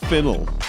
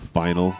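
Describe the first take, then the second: First: The first syllable sounds like 'fin'. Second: The first syllable sounds like 'fine'. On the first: The speaker calls it wrong. "Greg pronounced it Finnel. I don't know where you get that" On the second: The speaker calls it right. "P H, f, own, right?"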